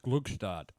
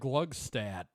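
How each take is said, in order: First: It is said the original city's way. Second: It is said the local, altered way. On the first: This is how the famous city's name is said. The speaker calls it right. "is supposed to be pronounced" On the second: This is how the town's people say the name. The speaker calls it wrong. "it is completely mispronounced"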